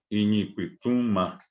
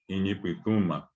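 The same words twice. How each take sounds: First: "iñipituma" said slowly, nasal "ñi" held clear; slow word demo. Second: Said in the usual way. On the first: Shown as a demonstration. Teacher to students showing a nasal Guaraní word slowly. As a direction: stretch "iñipituma" so every sound lands. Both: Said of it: "cuando uno dice pitú".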